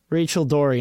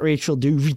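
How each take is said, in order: First: The surname sounds like the fish name Dory. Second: The surname has an extra ending after Dory. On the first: The speaker calls it right. "think of Finding Nemo. Okay, the fish in that movie" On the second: The speaker calls it wrong.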